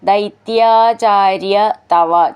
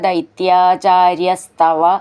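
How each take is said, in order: First: Each word is said separately with its own ending. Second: The words run together, their sounds merging.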